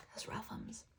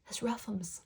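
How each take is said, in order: First: Fainter whisper. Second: Whispered. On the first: Repeated, fading further. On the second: Playful comment on losing credit. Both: Real, not acted.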